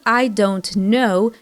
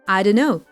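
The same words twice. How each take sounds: First: Each word is said clearly and separately. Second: The words are squeezed together into a shorter form. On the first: "Instead of" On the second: "you will most often hear a reduced version"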